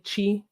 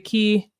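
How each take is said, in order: First: It starts with a ch sound. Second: It starts with a hard k sound.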